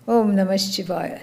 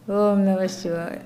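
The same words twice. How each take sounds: First: It is said with more energy and pep. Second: It is said flatly, with little energy. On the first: The mind chants with some effort. The speaker calls it right. "Say it with some, you know, some pep in the step" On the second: The mind chants unwillingly. The speaker calls it wrong. "Not like that"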